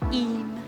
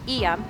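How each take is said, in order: First: The name is said with one syllable. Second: The name is said with two syllables. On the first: The speaker calls it right. "Simple, one syllable" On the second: The speaker calls it wrong. "I was saying Eyam"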